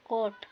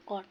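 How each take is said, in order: First: "कोट" with a rounded o; wrong long o in "कोट"; common mispronunciation. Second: "कोट" with an open aw vowel; correct pronunciation. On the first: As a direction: say "कोट" like coat. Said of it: "ढेर जना पढ़ल है". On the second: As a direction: say "कोट" like cot. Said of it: "सही उच्चारण कोट". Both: Shown as a demonstration.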